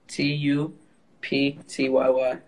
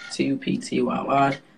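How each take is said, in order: First: It is spelled out slowly. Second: It is spelled out at normal speed.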